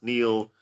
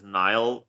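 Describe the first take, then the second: First: The name rhymes with meal. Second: The name rhymes with mile. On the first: This is how the owner of the name says it. The speaker calls it right. "Obviously, it's pronounced Neil" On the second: This is how most people would expect it. The speaker calls it wrong. "most people know that name pronounced as Nile"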